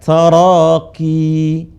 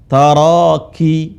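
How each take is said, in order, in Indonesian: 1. Vokal akhirnya dibaca panjang, dua harakat. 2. Vokal akhirnya dibaca pendek. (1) "panjangin dua harokat" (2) "Sebagian orang baca, ini teman-teman banyak yang salah"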